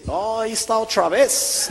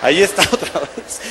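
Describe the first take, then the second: First: High, drawn-out mock gringo voice; imitación del gringo. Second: Repeating the line through a laugh; entre risas. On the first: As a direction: slowly imitate the gringo, pitched up. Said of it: "el gringo me dice". (gringo imitado, agudo y lento) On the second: Retold or imitated. Repite al gringo entre risas. (repetido con risa, en tono normal)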